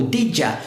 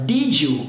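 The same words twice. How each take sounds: First: "did ya" with a J and relaxed A ending; reduced "did ya". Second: "Did you" blended into one word with a J; J sound in "Did you". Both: Shown as a demonstration. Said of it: "som do J".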